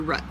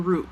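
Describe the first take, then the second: First: The word has a different, non-Michigan pronunciation. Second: The word has the speaker's Michigan pronunciation. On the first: "You might say root" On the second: "we say root ... I'm from Michigan"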